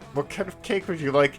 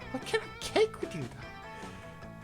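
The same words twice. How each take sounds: First: The put-on character voice is held steadily throughout. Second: The put-on character voice slips toward a natural voice. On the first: The speaker calls it right. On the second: The speaker calls it wrong.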